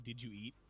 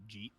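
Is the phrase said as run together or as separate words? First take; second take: separate words; run together. First: Each word is said fully and separately. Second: The words are merged into one short syllable. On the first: "we don't say did you eat?" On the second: "We say uh jeet"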